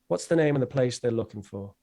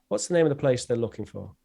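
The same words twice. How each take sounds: No difference in how they are said.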